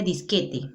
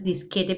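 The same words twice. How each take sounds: First: "disquete" ending in an i sound, "disqueti"; final e of "disquete" turned into i; barbarism disqueti. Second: Said in the usual way. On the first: Shown as a demonstration. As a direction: say "disquete" wrongly as dis-KE-ti. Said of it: "el barbarismo sería". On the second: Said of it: "lo correcto es disquete".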